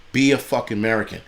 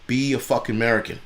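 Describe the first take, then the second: No difference in how they are said.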